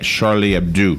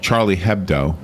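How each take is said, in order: First: The name is said with French pronunciation. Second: The name is read with English pronunciation. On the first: This is how native speakers say the name. "Charlie Hebdo is how they pronounce it" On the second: This is how the name looks when read. "the magazine's name looks like Charlie Hebdo"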